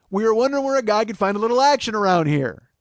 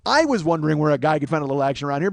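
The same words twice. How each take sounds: First: Loud, insistent model delivery of the line; rehearsed line. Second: "I" punched at the start, the rest rattled off fast; stress on I. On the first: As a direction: demonstrate the line emphatically, leaning on "action". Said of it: "All you have to say is". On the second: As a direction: hit "I" hard, then rush on. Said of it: "you should be saying". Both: Shown as a demonstration.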